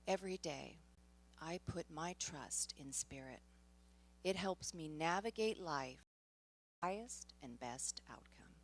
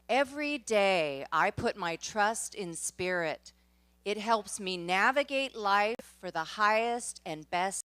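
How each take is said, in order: First: It is said aloud in a normal voice. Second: It is said loudly and enthusiastically.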